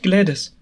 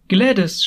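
First: Louder shout of her name; second desperate call. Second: An urgent call of her name, louder and higher; a cry of greeting; shouting her name. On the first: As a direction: cry her name again, pleading. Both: A narrator's reading. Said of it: "schrie ich".

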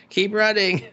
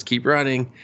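First: High-pitched mock-frantic cry; hammed-up panicky repeat, much higher; frantic urging. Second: Mild urgent prod in an acted quote; first push to flee, held back; urgent urging. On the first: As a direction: urge them to flee, voice jumping up. Acted urging to flee, escalated repeat. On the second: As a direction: urge them on, still contained.

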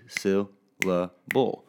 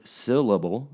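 First: "syllable" slowly split into syl, la, ble; counted out in beats. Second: Said in the usual way. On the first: Shown as a demonstration. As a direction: say "syllable" as three separate beats. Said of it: "I count the beats of that word". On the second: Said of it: "if I say that word".

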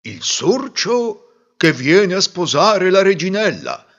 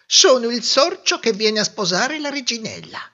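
First: Slow, louder, ceremonious butler's call; formal announcement. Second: High mouse voice, announcing himself proudly; a tiny suitor puffing himself up; proud little mouse. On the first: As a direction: proclaim it to the whole court. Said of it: "annunciò il maggiordomo". (annuncio solenne del maggiordomo, lento) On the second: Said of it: "disse il sorcetto". (topolino fiero, voce acuta) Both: A narrator's reading.

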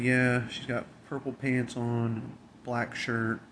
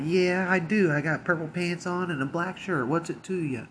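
First: Said in the usual way. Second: Mocking retort. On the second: The woman mocking the coworker's call, high and snotty. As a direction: throw it back as a bratty taunt.

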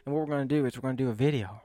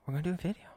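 First: Said in the usual way. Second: "We're gonna do a video" lifted upward, checking; softer, rising "video" with a question lilt. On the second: Shown as a demonstration. Telling viewers the plan, softer rising repeat.

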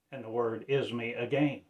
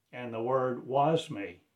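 First: "is" leaned on, then falling; stress on IS. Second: "was" leaned on, then falling; stress on WAS. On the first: Preacher declaring the word is me again, stress on "is". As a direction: put the weight on "is". Contrast of is with was. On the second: Preacher declaring the word was me, stress on "was". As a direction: put the weight on "was". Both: Real, not acted.

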